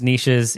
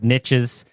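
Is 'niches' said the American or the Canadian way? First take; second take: Canadian; American. First: It is said with a Canadian pronunciation. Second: It is said with an American pronunciation.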